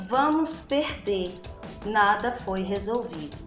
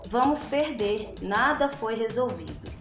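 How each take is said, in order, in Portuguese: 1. A pausa vem logo depois da palavra perder. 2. A pausa vem logo depois da palavra perder.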